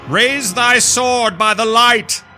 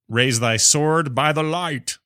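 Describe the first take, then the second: First: It is read in a dramatic put-on voice. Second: It is read in a plain, ordinary voice.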